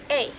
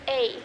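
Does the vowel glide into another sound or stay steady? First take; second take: glides; glides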